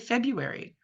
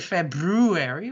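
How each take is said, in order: First: The first R sound is dropped. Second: The first R sound is clearly pronounced. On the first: The speaker calls it right. "we say February, most of us" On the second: The speaker calls it wrong. "We don't say February"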